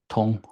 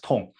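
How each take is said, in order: First: The word has a high level tone. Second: The word has a sharply falling tone. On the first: It means flow or passing through. "Tong is the first tone" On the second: It means pain or disease. "that's the fourth tone"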